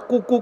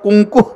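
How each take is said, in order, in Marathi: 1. पहिला स्वर साधा आहे, त्यात अनुनासिकता नाही. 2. पहिला स्वर k च्या आधी अनुनासिक होतो. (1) "इथं कशाला कुकू करतो" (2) "इथं कुंकू"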